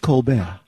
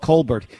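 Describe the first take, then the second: First: The name is pronounced in a French way. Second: The name is pronounced in a plain English way. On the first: This is the pronunciation he chose for himself. "He wants to be French" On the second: This is how his family says the name. "All of his family in South Carolina are"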